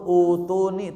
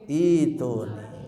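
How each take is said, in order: First: The word begins with a 'u' vowel. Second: The word begins with an 'i' vowel. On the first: The speaker calls it wrong. "tidak dibaca" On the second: The speaker calls it right.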